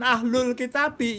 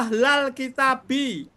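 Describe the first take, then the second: First: The first word has a u vowel before l. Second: The first word has an a vowel before l. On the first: The speaker calls it wrong. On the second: The speaker calls it right. "Ahla setelah ya"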